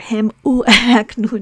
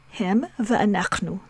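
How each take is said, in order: First: An oo vowel sound comes before anachnu. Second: A bare v sound joins straight onto anachnu. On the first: The speaker calls it wrong. "here we don't say" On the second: The speaker calls it right. "because anachnu is said rapidly"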